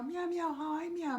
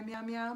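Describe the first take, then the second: First: Much higher, cute little cat voice; high kitty puppet saying its name; kitten puppet voice. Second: Said in the usual way. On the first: Pretend. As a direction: speak as a tiny kitten puppet. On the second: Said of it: "Can you say hi".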